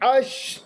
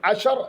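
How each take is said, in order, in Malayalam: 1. sh-നും r-നും ഇടയിൽ സ്വരാക്ഷരം ഉച്ചരിക്കുന്നില്ല. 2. sh-നും r-നും ഇടയിൽ ഒരു സ്വരാക്ഷരം ഉച്ചരിക്കുന്നുണ്ട്. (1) "ഷീൻ റോ സുക്കൂൻ ഒരൊറ്റ രീതിയിൽ" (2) "സുക്കൂൻ കൊടുക്കുന്നതിന് പകരം ഫത്ഹ കൊടുത്തത് വന്നേക്കാം"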